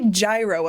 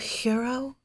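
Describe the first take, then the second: First: It is said with a plain English pronunciation. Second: It is said with an exaggerated foreign pronunciation. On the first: The speaker's everyday way of saying it. The speaker calls it right. "I'll say gyro if other people say it" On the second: The speaker is mocking a pretentious way of saying it. The speaker calls it wrong. "I don't want to be like a"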